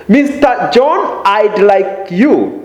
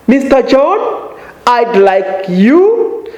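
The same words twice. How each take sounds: First: "Mister John" rises, "you" falls back down; rise then fall. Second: "Mister John" and "you" rising high; rising address tune. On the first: Teacher repeating the address, ending on a fall. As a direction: lift "John", drop "you". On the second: Teacher addressing a learner with rising "Mister John". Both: Shown as a demonstration. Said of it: "Notice the rising intonation on".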